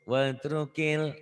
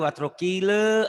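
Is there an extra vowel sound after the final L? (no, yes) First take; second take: no; yes. First: The final L ends cleanly with no added vowel. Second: An extra E vowel is added after the L. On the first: The speaker calls it right. "L-nya dibuat enak" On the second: The speaker calls it wrong. "ada E-nya"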